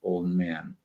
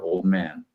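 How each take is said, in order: First: The D at the end of old is dropped. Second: The D at the end of old is dropped.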